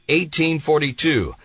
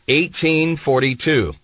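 The two takes are said the same way.

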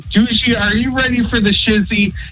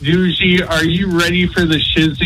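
First: It sounds lively and enthusiastic. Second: It sounds gloomy and unenthusiastic.

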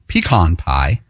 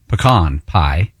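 First: It is said the Western way. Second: It is said the Texas way.

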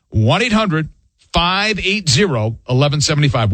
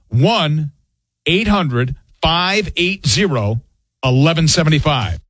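First: The number is read at normal speed. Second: The number is read slowly.

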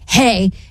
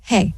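First: It is said in an angry tone. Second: It is said in a flat monotone.

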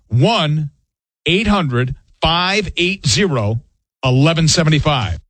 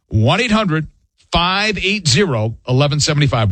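First: The number is said slowly. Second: The number is said at a normal pace.

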